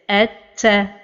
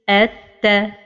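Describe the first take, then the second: First: The doubled t is released with heavy breath. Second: The doubled t is released with light breath. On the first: The speaker calls it wrong. "or to give hams like this" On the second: The speaker calls it right. "the right pronunciation is at ta"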